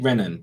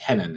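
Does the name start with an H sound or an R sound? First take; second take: R sound; H sound. First: The name begins with an R sound. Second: The name begins with an H sound. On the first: The speaker calls it wrong. "I'm gonna say Renan, but it's not Renan" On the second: The speaker calls it right. "It's Henan"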